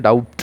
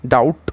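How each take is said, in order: First: ডাউট with a b sounded before the final t; ডাউট said as "daubt"; B wrongly voiced. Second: ডাউট with no b before the final t; ডাউট, B left silent. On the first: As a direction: pronounce the silent B in ডাউট. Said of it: "আমরা বলছি না". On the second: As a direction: go straight from the vowel to t in ডাউট. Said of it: "এখানে বি silent আছে". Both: Shown as a demonstration.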